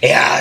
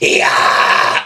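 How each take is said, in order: First: It is said weakly, without power. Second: It is said loudly, with power.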